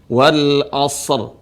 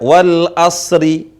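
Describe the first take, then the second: First: It ends on a bare consonant, no vowel. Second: It ends with an added final i vowel. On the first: The speaker calls it right. "Huruf terakhir jadi sukun" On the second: The speaker calls it wrong. "kesalahan orang yang belum belajar cara bacanya wal asri. Nah, ini salah"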